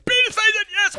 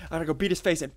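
First: High-pitched excited yell; wild high urging; frenzied battle cry. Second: Said in the usual way. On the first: Real, not acted. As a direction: shriek it mid-attack. Shouts same words mid-attack.

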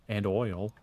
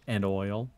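The two takes are said the same way.

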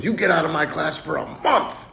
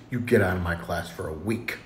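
First: Higher-pitched mock scolding; exasperated teacher. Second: Low, quiet acted dismissal; restrained teacher. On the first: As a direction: send the kid out, more worked up. Teacher's escalated punishment. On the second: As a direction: send the kid out, voice held down. Teacher's first, milder punishment.

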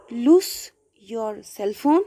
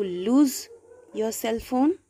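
First: "lose" said wrongly as "loose", with an S; "lose" rhyming with goose; mistaken loose. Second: "lose" ending in a voiced Z; "lose" rhyming with shoes; corrected lose. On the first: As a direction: slowly say "lose" with a hissed final s. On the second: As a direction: say "lose" with a buzzed final z. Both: Shown as a demonstration.

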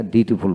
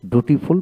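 First: ডিউটিফুল with a y-glide, "dyu-ti-ful"; preferred pronunciation. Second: ডুটিফুল without glide, "du-ti-ful"; rejected pronunciation. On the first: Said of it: "ডিউটিফুল বলি". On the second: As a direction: say ডুটিফুল starting "doo". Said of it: "ডুটিফুল বলি না". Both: Shown as a demonstration.

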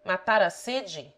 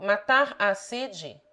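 First: Said in the usual way. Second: The "a" in "matar a sede" held as a longer, fuller vowel; "matar a sede" with a distinct, lengthened "a"; contracted "a". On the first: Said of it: "the a is a contraction". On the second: Shown as a demonstration. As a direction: draw out the lone "a" between "matar" and "sede". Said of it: "the a is a contraction of".

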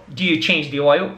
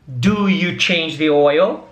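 First: Said in the usual way. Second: Slow, spaced out question with a rise; slow model question. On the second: Shown as a demonstration. Teacher models a question for students, slow and clear. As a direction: ask it slowly for the learners. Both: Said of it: "pra fazer uma pergunta".

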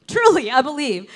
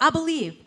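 First: Truly pushed louder than the first I believe; truly said louder, in earnest; stress on truly. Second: Said in the usual way. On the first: Real, not acted. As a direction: lean hard on truly.

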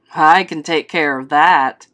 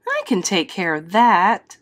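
First: Low, loud father voice; father's reply. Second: Lightly voiced mother, near the narrator's pitch; mother's reply. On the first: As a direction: answer as the father, dropped low and firm. Father answers the mother. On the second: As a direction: answer as the mother, lightly acted. Mother answers the father. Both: A narrator's reading.

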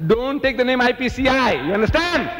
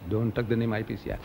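First: High, forceful warning; indignant order. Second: Low and soft; subdued repeat. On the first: Speaker forbidding mention of his group, high indignant order. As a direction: lay down the order, pitched well up. Acting out his protest, emphatic take. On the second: Speaker repeating the ban to himself, low and subdued. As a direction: drop it right down, almost to yourself. Same order repeated under his breath. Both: Acted.

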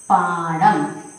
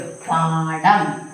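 First: Said in the usual way. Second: പാഠം drawn out very slowly, syllable by syllable; very slow spelling. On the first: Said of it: "next വാക്ക് രണ്ട്". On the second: Shown as a demonstration. Teacher spelling the word out for pupils, very slowly. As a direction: stretch out every sound of പാഠം. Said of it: "ആ ചിഹ്നം ഇട്ടു".

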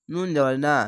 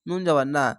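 The two takes are said the same way.

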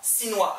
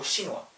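First: "시누아" wrongly begun with a thin S; mistaken S onset. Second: "시누아" begun with a hushing "sh"; "sh" onset. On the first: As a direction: say "시누아" as "see-nwa". ("시누아"를 S 소리로 잘못 발음) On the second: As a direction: say "시누아" as "shee-nwa". ("시누아"를 '쉬' 소리로 시작) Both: Shown as a demonstration. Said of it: "시누아 아니고 시누아".

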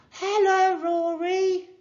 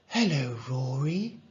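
First: Very high, loud call; high sustained shout to someone behind glass; yelled greeting. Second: Gentle hello with a questioning lift; understated bedside hello; doctor's greeting. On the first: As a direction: holler hello through a window. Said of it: "she yelled". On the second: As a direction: greet a young patient. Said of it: "said the doctor". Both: A narrator's reading.

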